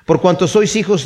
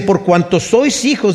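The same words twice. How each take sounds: First: Said in the usual way. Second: Each word of "Por cuanto sois hijos" drawn out slowly, weight on "sois"; slow emphatic reading. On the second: Shown as a demonstration. Preacher reading the verse to the congregation, slow and weighty. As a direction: read "sois" slowly and firmly as scripture. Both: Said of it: "dice el versículo seis".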